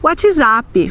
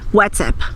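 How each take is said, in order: First: The word is said with Brazilian Portuguese sounds. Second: The word is said with English sounds. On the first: "nós vamos dizer" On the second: "nós nunca vamos dizer no Brasil"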